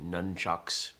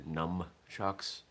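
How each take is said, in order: First: The first syllable ends with an n sound. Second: The first syllable ends with an m sound. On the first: The speaker calls it right. "a sort of English version of the word as nunchucks" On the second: The speaker calls it wrong. "I do reject the term numchucks, as in N-U-M"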